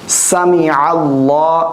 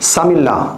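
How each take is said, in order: First: The vowel after 'sami' is clearly heard. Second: The vowel after 'sami' is dropped. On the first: The speaker calls it right. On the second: The speaker calls it wrong.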